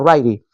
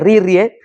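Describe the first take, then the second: First: The name is said with its real pronunciation. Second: The name is read the way it looks written. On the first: The speaker calls it right. "se pronuncia Ryrie" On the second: The speaker calls it wrong. "aunque se escribe Ririe"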